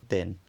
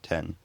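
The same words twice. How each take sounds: First: The t is released with little or no air. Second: The t is released with a burst of air. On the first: This is the northern English form. "a lot less aspirated" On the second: This is the southern English form. "released with a burst of air"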